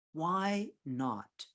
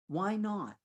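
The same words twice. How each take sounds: First: "Why not" stretched out word by word; deliberate, drawn-out "Why not"; slow, emphatic. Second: Said in the usual way. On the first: Real, not acted. Repeats it slowly for emphasis.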